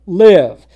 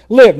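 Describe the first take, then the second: First: LIVE proclaimed loud and falling; a preacher booming Live at the congregation; emphatic command. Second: Live even louder, a short falling punch; a preacher booming the repeated Live; repeated emphatic command. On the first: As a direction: hit the word Live hard like a divine command. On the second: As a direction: land the second Live harder than the first. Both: Shown as a demonstration. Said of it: "Notice the emphasis there twice".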